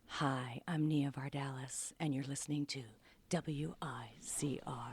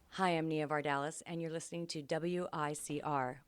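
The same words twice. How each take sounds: First: It is said in a put-on radio announcer voice. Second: It is said in her ordinary speaking voice.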